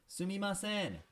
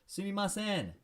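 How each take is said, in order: First: It is said in a high pitch. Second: The same.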